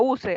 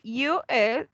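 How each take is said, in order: First: It is said as one word, like usual. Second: It is said as two separate letters. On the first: The speaker calls it wrong. "No suena eh, use" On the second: The speaker calls it right. "U S sound as"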